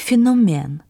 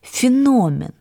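First: The stress is not on the middle syllable. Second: The stress is on the middle syllable. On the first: This is the older pronunciation. The speaker calls it wrong. "а вы произнесли «феномен»" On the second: This is the modern dictionary pronunciation. The speaker calls it right. "с ударением на «о» — «феномен»"

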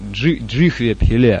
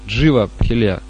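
First: The first word is said with an h sound. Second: The first word is said without an h sound. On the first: The speaker calls it right. "На самом деле, джихве пхиле обозначает" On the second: The speaker calls it wrong. "говорят джива, джива пхиле. Какая-то джива закралась туда у них"

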